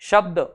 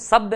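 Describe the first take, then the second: First: The word starts with a sh sound. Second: The word starts with an s sound. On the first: The speaker calls it right. "ऐसे बोलेंगे" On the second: The speaker calls it wrong. "नहीं बोलेंगे"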